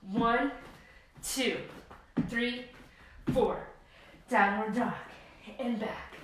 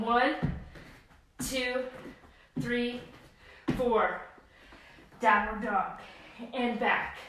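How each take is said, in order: Both takes have the same delivery.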